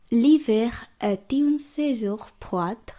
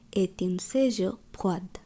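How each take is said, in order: First: L'hiver est une saison froide, liaison est une run together slowly; slow linked French. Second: Slow careful drill. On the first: Teacher models linked French for learners. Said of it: "একসঙ্গে উচ্চারণ করছি". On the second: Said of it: "খুব ভালোভাবে লক্ষ্য করুন". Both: Shown as a demonstration.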